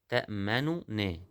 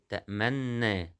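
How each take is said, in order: First: Two separate n sounds, the first with u. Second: One doubled n sound, the two merged. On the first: This is the word's original form. "أصلها كلمة إيه؟ تأمننا" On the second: The two n's have been assimilated. "لما حصل إدغام في النونين بقت تأمنا، نون مشددة"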